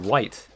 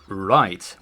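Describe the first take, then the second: First: The word starts with a W-like sound. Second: The word starts with a clear R sound. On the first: The speaker calls it wrong. "That that's like a W more than anything" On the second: The speaker calls it right. "right with an R"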